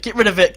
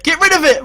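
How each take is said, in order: First: Said in the usual way. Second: High, loud yell; urgent shout. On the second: Real, not acted. Manager orders defender to clear the corner, shouting high. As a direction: shout it in alarm. Repeats urgently, much louder.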